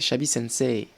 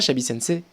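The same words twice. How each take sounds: First: The final vowel of sensei is drawn out. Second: The final vowel of sensei is short. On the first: The speaker calls it right. "C'est prolongé" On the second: The speaker calls it wrong. "c'est pas"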